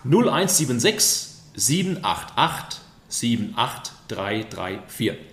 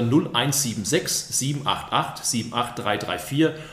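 First: The number is said slowly. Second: The number is said fast.

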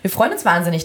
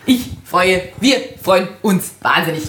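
First: It is said in a plain, normal voice. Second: It is said in a put-on Bavarian-tinged voice.

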